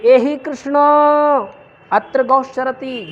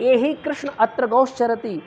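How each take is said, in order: First: एहि कृष्ण raised, louder and drawn out; pluta call. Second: Said in the usual way. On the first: Shown as a demonstration. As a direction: call Krishna, stretching कृष्ण. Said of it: "तो ये". (एहि कृष्ण को ऊँची आवाज़ में लंबा खींचकर) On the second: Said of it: "तो".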